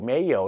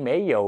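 Both takes have the same delivery.

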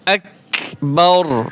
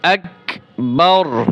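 Both takes have the same delivery.

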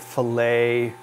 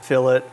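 First: The word ends with an 'ay' sound. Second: The word ends with an 'it' sound.

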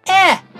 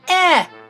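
First: The vowel is a short 'eh' as in 'egg'. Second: The same.

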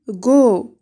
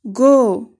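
First: The syllable starts with a hard g sound. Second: The syllable starts with a hard g sound.

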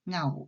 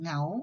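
First: The syllable has a low tone. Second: The syllable has a rising tone. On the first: "เสียงเอก" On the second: "พื้นเสียงเป็นเสียงจัตวา"

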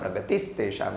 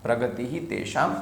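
First: The first word ends in an s sound. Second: The first word ends in a breathy h sound.

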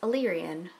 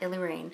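First: The word ends with a 'ree-an' sound. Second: The word ends with a 'rain' sound. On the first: The speaker calls it right. "now I realize it's Illyrian" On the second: The speaker calls it wrong. "not Illyrian"

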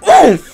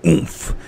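First: The sound is said loud and over-exaggerated. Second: The sound is said in a deep, low voice. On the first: The speaker calls it wrong. "I'm so used to just over-exaggerating" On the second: The speaker calls it right. "the oomph is more like a deep voice"

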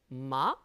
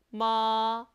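First: The pitch curls upward as it rises. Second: The pitch stays high and long. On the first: "이성은 살게 감아쳐 올라가죠" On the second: "일성은 높은 음을 길게 빼줍니다"

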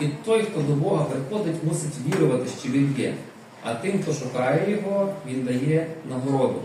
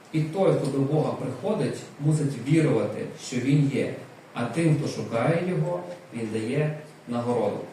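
The two takes are said the same way.

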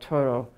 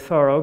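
First: The name is said with a French pronunciation. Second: The name is said the family's hometown way. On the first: This is how French speakers say it. "in the French way" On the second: This is how the family and hometown say it. "that is the way the family pronounced the name"

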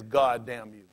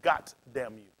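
First: The first word ends with a d sound. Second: The first word ends with a t sound. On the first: "He never says" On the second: "They say"

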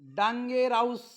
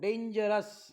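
First: The ending is a long 'ows' sound. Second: The ending is a short 'us' sound. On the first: The speaker calls it wrong. "असं नाही" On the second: The speaker calls it right. "पुन्हा वाचून दाखवतो"

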